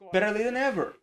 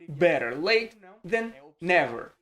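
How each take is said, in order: First: The phrase is said at a normal, quicker pace. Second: The phrase is said a little more slowly.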